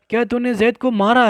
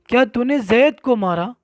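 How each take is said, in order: First: The word मारा carries the stress. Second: The word जैद carries the stress. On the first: The hitting itself is what is being confirmed. "यहाँ मारने को साबित करना है" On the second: Who was hit is what is being confirmed. "अब जिसको मारा गया है, अगर उसमें तकरीर आपको करना है"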